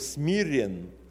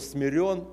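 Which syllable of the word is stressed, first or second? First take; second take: first; second. First: The stress is on the first syllable. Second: The stress is on the second syllable. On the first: This person is humble by nature. "то смирен по своей природе" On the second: Someone else has humbled this person. "то значит кем-то смирен"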